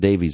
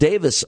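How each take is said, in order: First: The name ends in a long 'veez' sound. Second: The name ends in a short 'vis' sound. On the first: This is how it is said here. "but we pronounce it Davies over here" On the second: This is how it is said overseas. "they pronounce it Davis overseas, by the way. That E is silent"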